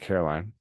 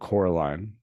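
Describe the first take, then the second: First: The name begins with the sound 'car'. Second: The name begins with the sound 'cor'. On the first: The speaker calls it wrong. "not Caroline" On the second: The speaker calls it right. "That's how you say it"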